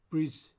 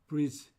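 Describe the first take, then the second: The two takes are said the same way.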